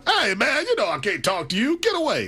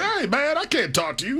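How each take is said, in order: First: Shouted, much higher hey man and get away; Magic Johnson impression. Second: High, bright-pitched hey man, then settling; the Magic brush-off, pitched way up; Magic Johnson impression. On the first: Host asks for the Magic Johnson voice again, so he shouts it high. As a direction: ham up Magic shooing a reporter off. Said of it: "Do it one more time for me". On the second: Repeating his Magic Johnson line for the host, higher. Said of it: "is that your Magic Johnson impersonation?".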